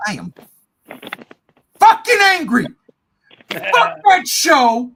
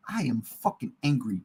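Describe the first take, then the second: First: Loud, high, exploding in anger; pause, then blast it out loud and high; angry outburst. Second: Low, quiet, held-in anger; contained anger. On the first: Host declaring his anger at the show, exploding. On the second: Host admitting his anger about the show, seething. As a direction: drop low and soft, holding the anger back. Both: Real, not acted.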